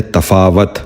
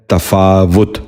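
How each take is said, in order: First: تفاوت ending in -wat, tafaawat; the wrong way: تفاوت as ta-faa-wat; wrong pronunciation. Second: تفاوت ending in -wut, tafaawut; the right way: تفاوت as ta-faa-wut; correct pronunciation. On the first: Teacher demonstrates the common mistake, تفاوت as tafaawat. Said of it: "یہ غلط تلفظ ہے". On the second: Teacher gives children the correct تفاوت, tafaawut. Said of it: "درست تلفظ ہے". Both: Shown as a demonstration.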